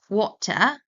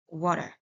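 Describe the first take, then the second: First: The middle consonant is a clear t. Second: The middle consonant is a soft d-like sound.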